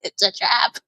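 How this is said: It is said in an Admiral Ackbar impression.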